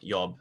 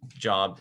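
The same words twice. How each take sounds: First: It begins with a Y sound. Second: It begins with an English J sound.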